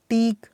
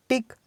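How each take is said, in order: First: टीक with a long, held ee; long vowel. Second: टिक with a short i; short vowel. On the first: Teacher drilling word pairs for students, long vowel. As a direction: stretch the ee in टीक. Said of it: "इसका sound long है". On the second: Teacher drilling word pairs for students, short vowel. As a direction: keep the i in टिक brief. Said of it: "short sound है". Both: Shown as a demonstration.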